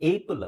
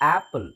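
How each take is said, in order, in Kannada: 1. ಮೊದಲ ಸ್ವರ 'ay' ಶಬ್ದ. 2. ಮೊದಲ ಸ್ವರ ತೆರೆದ 'ah' ಶಬ್ದ. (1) "ಏಪಲ್ ಅಲ್ಲ" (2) "ಇದು ಆಪಲ್"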